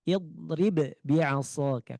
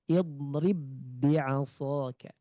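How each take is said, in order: First: The first b is released with a bouncing echo. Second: The first b merges into the second b. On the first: The speaker calls it wrong. "Jadi tidak boleh idrib bi'asaka" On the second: The speaker calls it right. "idgham harus melebur ke sini nih. Melebur ke yang kedua"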